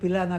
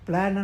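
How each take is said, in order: First: A short vowel is inserted between the consonants. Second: It begins with two consonants together, no vowel. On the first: "ಪ್ಲ್ಯಾನ್ ಅನ್ನೋದು ಪಿಲಾನ್ ಆಗಬೇಕಾಗಿ ಬಂತು" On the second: "ಪದದ ಆದಿಯಲ್ಲಿ ಎರಡು ವ್ಯಂಜನಗಳು ಬರೋದಿಲ್ಲ"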